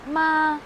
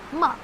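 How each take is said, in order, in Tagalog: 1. Binigkas ito sa unang tono. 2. Binigkas ito sa ikaapat na tono. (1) "First tone" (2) "Fourth tone is ma"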